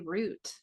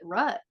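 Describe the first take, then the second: First: The vowel sounds like the one in boot. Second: The vowel sounds like the one in but. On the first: "ask the East Coast people how they say root" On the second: "my mom calls it rut"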